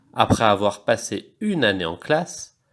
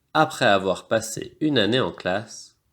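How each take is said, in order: Both takes have the same delivery.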